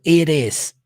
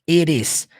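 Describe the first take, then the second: No difference in how they are said.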